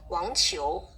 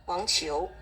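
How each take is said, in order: First: The second syllable starts with a ch-like sound. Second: The same.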